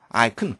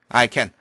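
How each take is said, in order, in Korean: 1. can이라는 단어는 약하고 줄어든 형태로 발음됩니다. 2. can이라는 단어는 완전한 모음으로 발음됩니다.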